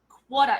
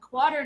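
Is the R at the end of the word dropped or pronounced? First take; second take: dropped; pronounced. First: The final R sound is dropped completely. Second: The final R sound is clearly pronounced. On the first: "we say in Australia quarter, quarter. It's like got an H on the end. You don't say your R's" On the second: "I've adopted the American way"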